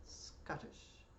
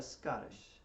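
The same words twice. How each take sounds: First: Whispered Scottish, first syllable clipped short and rolling straight into the second; quick Scottish rhythm. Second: Said in the usual way. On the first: Shown as a demonstration. Fiddle teacher whispering Scottish to show the snap rhythm. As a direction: say Scottish with a snap from SCOT to tish. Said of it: "you go from the first syllable to the second one rather quickly". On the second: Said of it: "So I call that a Scottish".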